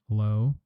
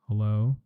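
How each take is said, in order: The two takes are said the same way.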